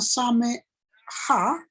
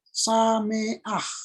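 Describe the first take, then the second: First: The final a vowel comes after the h. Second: The final a vowel comes before the h. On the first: The speaker calls it wrong. "maka dia bukan same ha" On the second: The speaker calls it right. "tapi dibaca menjadi sameah"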